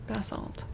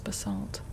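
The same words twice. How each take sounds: First: The stress is on the first syllable. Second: The stress is on the second syllable. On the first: This is the Canadian way. "I've heard it with the the emphasis on the first syllable" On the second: This is the American way. "The American is basalt"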